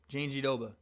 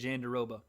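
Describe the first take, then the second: First: The name is said with a Brazilian Portuguese pronunciation. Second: The name is said with an anglicized pronunciation. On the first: The speaker calls it right. "It's the Brazilian pronunciation" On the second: The speaker calls it wrong. "I said Jandaroba"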